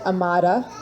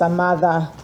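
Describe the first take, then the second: First: The d is a hard English d sound. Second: The d is soft, close to a th sound. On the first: The speaker calls it wrong. "So it looks like Amada" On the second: The speaker calls it right. "a very soft D they call it"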